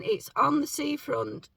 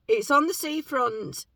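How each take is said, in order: First: Rough, croaky morning voice. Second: Said in the usual way. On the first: Real, not acted. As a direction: say it with a just-woken throat. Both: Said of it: "Sorry, I've got my morning voice again".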